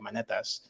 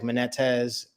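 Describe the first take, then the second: First: The name is said with a Greek pronunciation. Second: The name is said in a Southern accent. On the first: "in Greek, it'd be like" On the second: "with the Southern accent, they'll say like"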